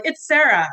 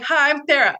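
First: Repeating her name through an embarrassed laugh; laughing correction. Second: Flustered, stumbling over her own name; nervous fumble. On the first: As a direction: laugh it off as you say the name properly. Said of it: "I was like, "Fuck my life already". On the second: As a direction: blurt the name out too nervous to say it right. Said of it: "I couldn't even say my own fucking name". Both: Retold or imitated.

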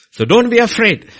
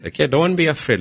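First: "So don't be afraid" pushed higher and louder; emphatic. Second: Said in the usual way. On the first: Real, not acted. Preacher urging congregation, emphatic and loud.

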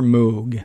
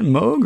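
First: "Moog" with an oo, as in moo; oo pronunciation. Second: "Moog" with a long o, rhyming with vogue; long-o pronunciation. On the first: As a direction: say "Moog" with the vowel of "food". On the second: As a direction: say "Moog" with the vowel of "go". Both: Shown as a demonstration. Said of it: "is that Moog or Moog".

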